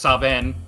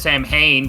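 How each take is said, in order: First: The middle is said with a V sound. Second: The middle is said with an M sound. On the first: It is the accepted pronunciation. The speaker calls it right. "I guess it's Saven" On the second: It is read the way it is spelled. The speaker calls it wrong. "says Samhain"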